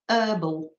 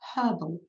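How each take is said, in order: First: It is said the American way. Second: It is said the British way. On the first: "and not herbal" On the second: "I said herbal"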